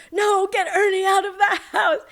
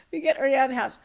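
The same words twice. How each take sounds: First: High, loud re-enacted scream; retold scream. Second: Said in the usual way. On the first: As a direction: cry out in mock panic, pitched high. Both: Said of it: "We were screaming".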